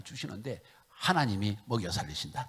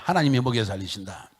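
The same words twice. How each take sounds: First: Said in the usual way. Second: Loud preacher's call for the congregation to repeat. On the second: Shown as a demonstration. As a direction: shout it back to the congregation, loud. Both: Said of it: "따라합시다".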